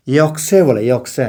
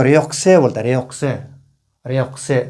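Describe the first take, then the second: First: योकसे, the r left out; dropping the r. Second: र्योकसे with a clear r; with the r sound. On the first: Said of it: "र नहीं बोल के". (र छोड़कर योकसे) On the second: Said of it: "जो र नहीं बोलने वाला". (र के साथ र्योकसे) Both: Shown as a demonstration.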